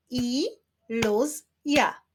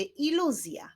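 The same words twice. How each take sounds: First: "Iluzja" very slowly split as I-luz-ja; three separate beats for "Iluzja"; syllable by syllable. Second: Said in the usual way. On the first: Shown as a demonstration. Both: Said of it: "wyklaszczmy sylaby w wyrazie iluzja".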